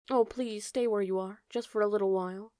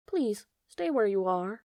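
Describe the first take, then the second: First: Bambi begging the butterfly gently. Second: Calling out. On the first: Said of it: "Bambi begged him". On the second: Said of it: "Bambi called to him". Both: A narrator's reading.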